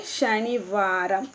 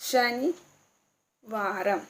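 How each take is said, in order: First: शनिवारम said slowly, syllable by syllable, with a rise at the end; slow model word. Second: शनिवारम stretched very slowly and softly, each sound held; very drawn-out model word. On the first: Teacher models शनिवारम for viewers, slow and rising. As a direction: spell out शनिवारम slowly for learners. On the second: Teacher repeats शनिवारम for viewers, very slowly drawn out. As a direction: draw out शनिवारम as far as it goes. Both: Shown as a demonstration. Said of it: "शनिवार को क्या बोलेंगे?".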